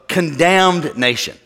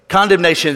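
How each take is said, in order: First: The word is said slowly, split in two. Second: The word is said at normal speed. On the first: "say it slow" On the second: "say it this way"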